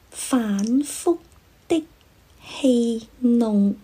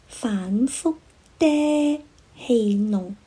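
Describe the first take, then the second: First: The syllable 的 ends abruptly, airflow cut off. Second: The syllable 的 ends open with a trailing vowel. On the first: The speaker calls it right. "应该是" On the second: The speaker calls it wrong. "把应该截住气流的结束音发成了开放式的结束音"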